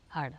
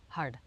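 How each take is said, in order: No difference in how they are said.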